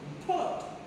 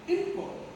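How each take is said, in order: First: The stress is on the second syllable. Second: The stress is on the first syllable. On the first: It is a verb. "This is the verb. ... We have to stress this part" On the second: It is a noun. "We have to pronounce the first syllable import"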